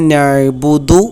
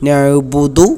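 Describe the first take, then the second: Both takes have the same delivery.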